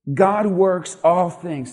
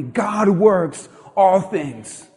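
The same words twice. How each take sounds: First: Slow, each word placed; slow statement. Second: Very slow, stretched for the crowd to join; slow call and response. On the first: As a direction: lay it down slowly for them to repeat. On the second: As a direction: draw each word out so the church says it along. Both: Shown as a demonstration. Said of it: "Say that with me".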